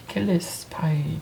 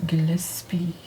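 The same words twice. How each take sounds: First: Gillespie ending in "pie", drawn out; unsure second guess. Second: Gillespie ending in a "pee" sound; unsure reading. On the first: Trying another reading of a game title, unsure guess. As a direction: say Gillespie slowly with a final "-spy". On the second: Puzzling out a game title, unsure reading. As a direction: say Gillespie with a final "-spee". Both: Real, not acted. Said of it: "I don't know how to read this".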